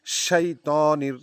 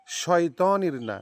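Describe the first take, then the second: First: শাইতানির with a clear শাই diphthong; correct pronunciation. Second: শয়তানির said Bengali-style, not শাইতানির; wrong pronunciation. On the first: Teacher giving students the corrected শাইতানির, clear and careful. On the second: Teacher showing students the mistake, শয়তানির quick and wrong. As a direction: show the common mistake শয়তানির with a short শয়. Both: Shown as a demonstration.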